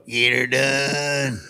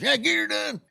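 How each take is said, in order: First: Slow, drawn-out Get Her Done; his own catchphrase. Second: Catchphrase tossed off high and light; a fan's quick, high Get Her Done; imitating a fan. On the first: Retold or imitated. Comic proves he's Larry, slow and drawn out. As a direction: stretch each word of the catchphrase. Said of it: "Let me hear you say Get Her Done". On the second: Fan at the record store says it lightly and high. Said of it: "He goes".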